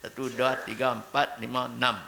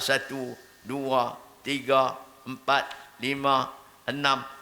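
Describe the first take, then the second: First: The numbers are counted at a steady, moderate speed. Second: The numbers are counted very slowly. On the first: The speaker calls it right. "tidak terlalu cepat, tidak terlalu lambat" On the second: The speaker calls it wrong. "Lambat sangat pula"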